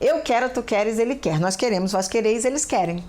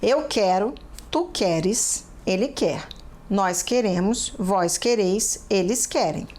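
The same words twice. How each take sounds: First: It is said very fast. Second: It is said at a normal, slow pace.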